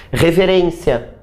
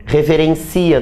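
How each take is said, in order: First: Reverência with the stress on RÊN. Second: Reverencia with the stress moved to CI. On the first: Teacher contrasts noun and verb, stressing RÊN. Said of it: "Reverencia, do verbo reverenciar". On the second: Teacher contrasts verb with noun, stressing CI. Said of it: "do verbo reverenciar". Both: Shown as a demonstration.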